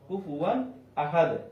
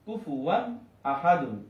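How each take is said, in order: First: The last word ends abruptly on its final consonant. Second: The last word ends with a full -un sound. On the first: The reader stops at this word. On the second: The reading continues without a stop.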